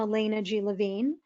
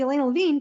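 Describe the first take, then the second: First: The name is said slowly and clearly. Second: The name is said quickly and run together. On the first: The listener can catch the whole name. The speaker calls it right. "I slowed down" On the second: The listener may not catch the last name. The speaker calls it wrong. "when I say my name very quickly"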